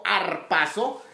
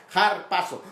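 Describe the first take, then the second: First: Arpazo with a silent h, plain vowel start; arpazo, no rough breathing. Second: Harpazo with a raspy J sound at the start, stress on pa; h as Spanish J. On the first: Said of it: "no como arpazo". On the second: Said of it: "sino como har, como J". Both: Shown as a demonstration.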